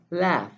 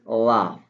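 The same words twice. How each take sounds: First: It is said in an American accent. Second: It is said in a British accent. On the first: "But in American English" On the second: "In British English"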